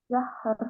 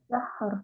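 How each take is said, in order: The two takes are said the same way.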